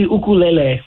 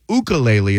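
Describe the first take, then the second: First: "ukulele" as oo-koo-leh-leh; correct Hawaiian pronunciation. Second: "ukulele" with a "you" start, the English way; everyday pronunciation. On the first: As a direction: say "ukulele" with an "oo" start and "leh-leh" end. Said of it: "would be the correct way to say". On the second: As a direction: say "ukulele" the common mainland way. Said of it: "Is that the proper pronou". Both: Shown as a demonstration.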